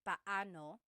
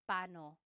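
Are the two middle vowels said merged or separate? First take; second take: separate; merged. First: The two middle vowels are said separately. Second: The two middle vowels run together quickly. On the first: "you say them separately" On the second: "when speaking quickly, Filipinos just say"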